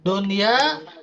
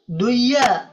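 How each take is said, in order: First: The n sound is clearly heard before y. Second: The n sound is merged into the y. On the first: The speaker calls it right. "harus jelas suara nun sukunnya" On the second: The speaker calls it wrong. "nggak dibaca duya"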